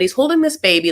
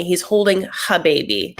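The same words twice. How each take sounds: First: Said in the usual way. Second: "her" with a heavily breathed H at the start; overdone H. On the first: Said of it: "that wasn't really ne-, necessary". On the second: Shown as a demonstration. Vlogger describing Michael with the baby, "her" with an overdone H. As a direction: hit the H in "her" too hard. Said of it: "I, like, hit a H too much".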